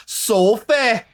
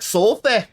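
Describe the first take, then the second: First: High, loud British "Sophie", drawn-out soh-fay. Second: High, loud "Sophie" as soh-fay with a British vowel; mock British "Sophie", ending on fay. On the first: Retold or imitated. Imitating how the British cast say "Sophie". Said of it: "the tough one for you is the". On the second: Friend mimics her co-host's British "Sophie". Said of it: "she's always like".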